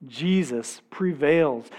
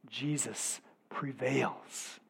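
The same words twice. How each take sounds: First: Said in the usual way. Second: Slow, near-whispered awe; hushed. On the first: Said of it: "repeated after hushed take". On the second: Shown as a demonstration. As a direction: say it softly, almost to yourself. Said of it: "repeated louder after".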